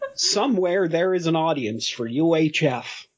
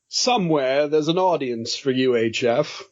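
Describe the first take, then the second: First: It is said in a plainer American-sounding accent. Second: It is said in a fancy British-sounding accent. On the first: "Is that better? ... you sound more like Stephen King" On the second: "why are you always British? ... I'm fancy. This is how fancy people sound"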